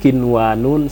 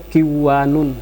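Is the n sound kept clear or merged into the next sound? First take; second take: clear; merged. First: The n is pronounced clearly before the w. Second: The n is merged into the following w. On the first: The speaker calls it right. "diizharkan bacaannya" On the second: The speaker calls it wrong. "tidak boleh"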